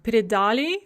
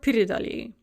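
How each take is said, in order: First: The stress is on the stem syllable. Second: The stress is on the first syllable. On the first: "same for the ani form" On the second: "same for the ani form"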